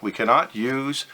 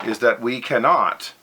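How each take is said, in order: First: Cannot lifted and weighted; stress on cannot. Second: Cannot pressed firmly, falling at the end; stress on cannot. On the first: Lecturer repeating the rule for students, emphasising cannot. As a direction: land on cannot to make the point. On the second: Lecturer warning students they cannot use compass angles, stressing cannot. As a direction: lean hard on cannot as a rule. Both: Real, not acted. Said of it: "I emphasize the word cannot".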